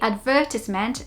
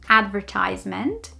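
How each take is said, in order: First: It is pronounced the British English way. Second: It is pronounced the American English way. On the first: "we say advertisement" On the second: "not advertisement"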